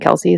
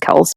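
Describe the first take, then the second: First: The name is two syllables ending in 'ee'. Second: The name is one syllable without a final 'ee'. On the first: The speaker calls it wrong. "everyone started saying Kelsey" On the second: The speaker calls it right. "the right way to pronounce that is Kels"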